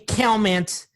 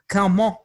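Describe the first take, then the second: First: The name is pronounced with English sounds. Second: The name is pronounced with French sounds. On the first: "in English, it'll be it would be Calment" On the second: "but in French, the language of love is Calment"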